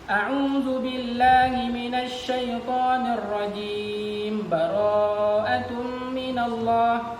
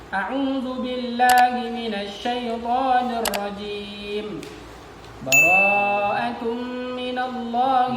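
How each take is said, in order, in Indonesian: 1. Rajim berakhir terpotong, tetapi lanjut tanpa berhenti. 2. Rajim berakhir terpotong, lalu ada jeda yang jelas. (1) "Salah itu. Karena rajimnya disukunkan, padahal dia mau menyambung"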